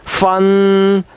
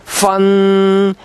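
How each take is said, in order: No difference in how they are said.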